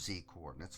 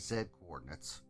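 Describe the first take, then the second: First: The letter Z is said the American way. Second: The letter Z is said the non-American way.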